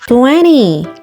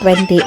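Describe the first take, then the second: First: The word is said with a marked foreign accent. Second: The word is said plainly, without a marked accent. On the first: The speaker calls it right. "Like that. With accent dapat" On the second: The speaker calls it wrong. "Ay hindi"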